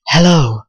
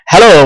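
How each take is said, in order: First: It is said in a put-on seductive voice. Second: It is said in an ordinary speaking voice.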